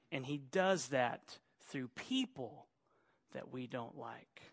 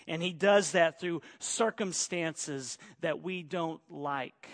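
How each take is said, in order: First: Softer echo of the line before; quieter repeat. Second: Said in the usual way. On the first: Shown as a demonstration. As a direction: repeat it softer, dropping away.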